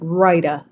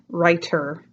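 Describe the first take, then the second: First: The middle T is said like a soft D. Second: The middle T is said as a clear T. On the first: "It's not a T, it's a D, almost like rider" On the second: "instead of"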